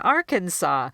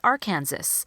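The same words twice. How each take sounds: First: The ending does not sound like Kansas. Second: The ending sounds like the word Kansas. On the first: The speaker calls it right. "instead of saying Arkansas" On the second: The speaker calls it wrong. "they'll look at this second word and say Arkansas"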